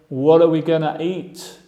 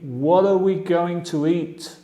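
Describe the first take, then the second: First: Going to is reduced to gonna. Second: Going to is said in full. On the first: This is informal English. "También puedo decir, ... Inglés informal" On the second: This is the standard form. "Fija la pronunciación aquí"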